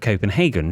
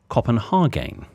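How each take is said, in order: First: It is said in a plain, ordinary way. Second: It is said in a put-on posh way. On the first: "instead of" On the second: "in a misguided effort to sound posh, my mam mispronounces"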